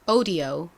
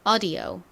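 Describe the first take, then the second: First: The first vowel sounds close to 'oh'. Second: The first vowel sounds close to 'uh'. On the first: "이제 영국식 가볼까요?" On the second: "미국식으로 두 번"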